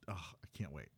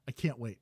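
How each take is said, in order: First: Breathy eager whisper. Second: Said in the usual way. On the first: Real, not acted. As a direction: whisper it under your breath.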